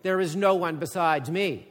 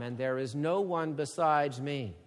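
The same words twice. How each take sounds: First: Louder, emphatic, with stress on no; God's declaration. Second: Said in the usual way. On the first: Acted. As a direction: set it firmly against Babylon's boast. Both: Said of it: "God gives a marked contrast".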